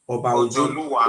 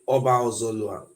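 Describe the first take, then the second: First: The name begins with 'Ojo' with full syllables. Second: The name begins with 'Ozo' and is shortened. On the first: The speaker calls it right. "the original pronunciation for here is now" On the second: The speaker calls it wrong. "He say Oba Ozolwa"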